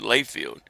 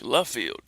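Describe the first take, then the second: First: The first syllable sounds like 'lay'. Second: The first syllable sounds like 'luh'. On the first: The speaker calls it wrong. "it was pronounced differently" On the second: The speaker calls it right. "It's French"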